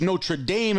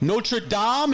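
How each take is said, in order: First: The name is said in an anglicized way. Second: The name is said in a French-style way. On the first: It refers to the sports team. "if it's the team" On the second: It refers to the church. "if you're at the church"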